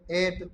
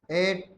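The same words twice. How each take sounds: The two takes are said the same way.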